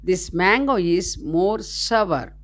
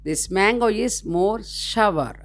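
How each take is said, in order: The two takes are said the same way.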